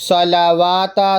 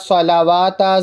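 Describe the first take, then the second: The two takes are said the same way.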